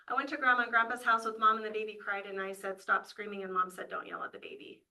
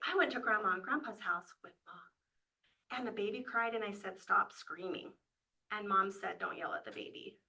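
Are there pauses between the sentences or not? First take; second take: no pauses; pauses. First: It runs on without pauses between sentences. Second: It has pauses between the sentences.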